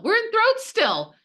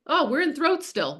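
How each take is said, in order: First: Much higher, louder playful echo of throat; squeaky mock repeat. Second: Mock realization. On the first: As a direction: say throat way up high, teasing. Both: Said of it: "this is like".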